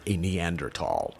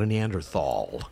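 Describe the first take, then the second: First: The last syllable is said with a plain t sound. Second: The last syllable is said with a th sound. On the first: The speaker calls it right. "That's right, a Neanderthal. We're supposed to say tall now" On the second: The speaker calls it wrong. "Not a Neanderthal"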